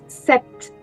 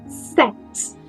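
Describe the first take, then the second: First: A P sound is heard before the T. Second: No P sound is heard before the T. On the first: The speaker calls it wrong. "Não se diz sept. S P não é pronunciado" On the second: The speaker calls it right. "Então eu só digo set"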